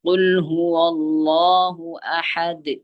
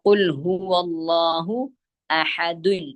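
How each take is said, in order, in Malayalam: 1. അവസാന വാക്ക് വ്യഞ്ജനം d-യിൽ കടുപ്പത്തോടെ അവസാനിക്കുന്നു. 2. അവസാന വാക്ക് അധികമായി ചേർത്ത -un അക്ഷരത്തിലാണ് അവസാനിക്കുന്നത്. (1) "അഹദുൻ എന്നുള്ളത് അഹദ് ആയി മാറി ഫുൾ സ്റ്റോപ്പ് ചെയ്യുമ്പോൾ" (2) "ആ ദാലിന് ദമ്മു തൻവീൻ വന്നു"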